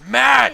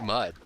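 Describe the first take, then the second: First: The vowel sounds like the one in mad. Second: The vowel sounds like the one in mud. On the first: "no, it's mad!" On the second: "you said mud instead of mad"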